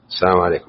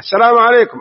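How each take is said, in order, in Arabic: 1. تُقال التحية بصوت خافت. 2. تُقال التحية بصوت عالٍ. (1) "ما سمع" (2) "آخر واحدة قوي"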